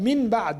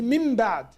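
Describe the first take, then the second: First: The first word ends with an n sound. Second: The first word ends with an m sound. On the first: The speaker calls it wrong. "It's hard to say min ba'd all the time" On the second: The speaker calls it right. "You replaced noon with mim"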